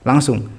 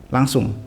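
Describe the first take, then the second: No difference in how they are said.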